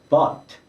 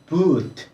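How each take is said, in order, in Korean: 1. 모음은 짧게 나는 'uh' 소리입니다. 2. 모음은 길게 나는 'oo' 소리입니다. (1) "실제로 발음은 but 이렇게 발음을 하고 있거든요" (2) "boot 라고 발음해야 되는 거 아니냐?"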